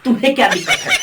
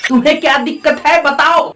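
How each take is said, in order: First: Said in the usual way. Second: Fast, challenging repeat of तुम्हें क्या दिक्कत है; fast demanding challenge; pushier retake. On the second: Acted. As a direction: fire the question back quickly.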